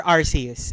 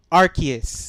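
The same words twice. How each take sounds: First: Arceus said with an S sound; soft C in the middle of Arceus; soft-C pronunciation. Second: Arceus said with a K sound; hard K in the middle of Arceus; hard-C pronunciation. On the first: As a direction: say Arceus as "AR-see-us". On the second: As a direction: say Arceus as "AR-kee-us". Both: Shown as a demonstration. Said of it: "whatever you pronounce it as".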